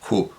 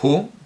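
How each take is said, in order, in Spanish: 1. La h inicial es fuertemente aspirada, como la J. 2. La h inicial es suave y ligeramente aspirada. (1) "con una aspirada muy fuerte, casi como una J" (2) "yo digo Hu"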